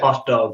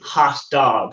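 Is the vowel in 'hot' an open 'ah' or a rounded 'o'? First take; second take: rounded o; open ah. First: The vowel in hot is a rounded o. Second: The vowel in hot is an open ah. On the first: "rather than hot dog with an O's" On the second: "like an A H A H"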